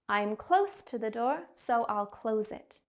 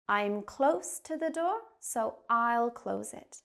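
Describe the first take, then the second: First: The sentence is spoken fast. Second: The sentence is spoken slowly. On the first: "and then we'll speed up" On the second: "I'm going to say it slowly to start"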